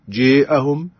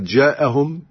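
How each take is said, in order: First: The long vowel leans toward e. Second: The long vowel is an open a.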